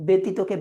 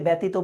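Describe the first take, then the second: First: "ব্যতীতকে" said with "be" at the start; standard e vowel. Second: "ব্যতীত" said with "bæ" at the start; common mispronunciation. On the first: Teacher naming the correct word, ব্যতীতকে with an e vowel. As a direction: say "ব্যতীতকে" as "betito-ke". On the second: Teacher showing a common regional slip, ব্যতীত with open æ. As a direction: say "ব্যতীত" as "bætito", open vowel. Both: Shown as a demonstration. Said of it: "ব্যতীতকে ব্যতীত বলে থাকি".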